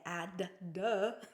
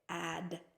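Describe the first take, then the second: First: The final d is released as a separate 'duh'. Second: The word ends on a quiet d, no extra syllable. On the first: The speaker calls it wrong. "We don't say add. Duh" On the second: The speaker calls it right. "We say add"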